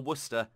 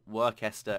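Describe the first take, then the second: First: It is said the short British way. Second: It is said sounding out every written letter. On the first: The speaker calls it right. "it's a British spelling" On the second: The speaker calls it wrong. "not Worcester, as I heard someone pronounce it"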